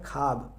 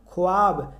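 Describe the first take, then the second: First: खाब said as "khaab", with no w sound; correct pronunciation. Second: ख्वाब said as spelt, with the w sound in "khwaab"; spelling pronunciation. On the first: Teacher giving students the real reading, खाब without the w. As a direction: drop the वाव and say खाब plainly, "khaab". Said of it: "लेकिन इसको पढ़ा जाता है". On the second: Teacher showing students the written form, ख्वाब with w sounded. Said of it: "क्या लिखा गया है?". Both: Shown as a demonstration.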